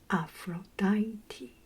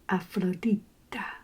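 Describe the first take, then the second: First: The name is pronounced the English way. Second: The name is pronounced the Spanish way. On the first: "So in English is" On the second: "And in Espanol"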